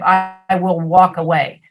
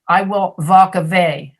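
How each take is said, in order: First: The w sounds are said as w. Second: The w sounds are said like v. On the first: The speaker calls it right. "instead of" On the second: The speaker calls it wrong. "or v, like"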